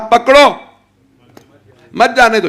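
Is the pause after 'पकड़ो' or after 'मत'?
after पकड़ो. The pause comes after the word पकड़ो.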